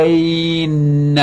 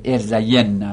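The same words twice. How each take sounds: First: ارزین with a drawn-out 'ay' running straight into doubled n; unvoweled ya clash. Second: ارزین with a short 'ye' before a doubled n; voweled ya form. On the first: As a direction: hold ارزین as er-zaaay-nna on one long sung note. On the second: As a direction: say ارزین as er-za-YEN-na, ya given a vowel. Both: Shown as a demonstration.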